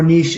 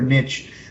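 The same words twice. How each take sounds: First: It is said with a non-American pronunciation. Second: It is said with an American pronunciation.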